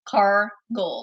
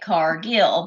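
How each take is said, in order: First: The second syllable sounds like 'goal'. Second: The second syllable sounds like 'gill'. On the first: This is how the family says the name. "like you are a car goal" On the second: This is how many other people say the name. "a lot of people say it Cargill because that's how it's spelled"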